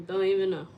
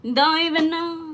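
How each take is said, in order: First: Said in the usual way. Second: Higher, louder exclamation; exasperated outburst. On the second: Real, not acted. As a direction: throw it out in exasperation. Repeated, loud and high.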